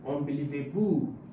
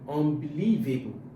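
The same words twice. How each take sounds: First: The stress is on the fifth syllable. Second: The stress is on the fourth syllable. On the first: The speaker calls it wrong. "If I put it on the fifth one" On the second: The speaker calls it right. "putting the stress on the fourth syllable"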